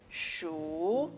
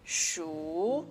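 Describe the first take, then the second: First: The pitch rises from middle to high. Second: The pitch rises from middle to high.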